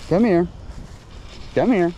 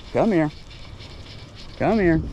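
Both takes have the same delivery.

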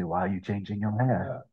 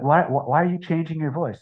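First: Softer, lightly voiced cool retort; unfazed pirate comeback. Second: Higher-pitched mock complaint; challenging questioner. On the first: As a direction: turn the question back, understated. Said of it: "And I say". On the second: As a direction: imitate someone objecting to the change. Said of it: "they're like".

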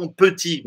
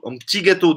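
First: "petit" in two syllables, puh-TI; petit with sounded E. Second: "petit" said as PTI before gâteau; P straight into T in "petit"; petit with dropped E. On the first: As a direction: let a schwa sound after the P of "petit". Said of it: "não um petit". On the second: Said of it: "mas um petit gâteau diretamente". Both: Shown as a demonstration.

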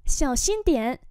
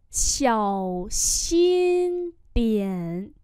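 First: Said in the usual way. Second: Long, separated syllables; slow teacher's repeat; slow model pronunciation. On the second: Shown as a demonstration. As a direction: hold each tone for the learner. Teacher repeats phrase slowly.

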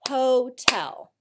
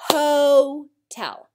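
First: Hotel as two clapped beats, ho-tel; clapped syllables. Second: Hotel louder, ho-tel with a long open O; emphatic syllables. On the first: Teacher leads class clapping syllables, beat by beat. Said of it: "Clap them out with me". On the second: Teacher stresses the long O, louder and slower. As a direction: stretch the O in Hotel, then land tel. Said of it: "long O comes at the end of the first syllable". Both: Shown as a demonstration.

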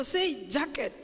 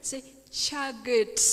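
First: Said in the usual way. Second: Slow "jacket" turned into "chagget"; child's Kisii-accented "jacket", like "chagget"; Sokoro's mispronunciation. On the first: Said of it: "it is jacket. So say jacket". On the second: Retold or imitated. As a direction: repeat "jacket" with ch for j and g for k. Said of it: "very deep Kisii accent".

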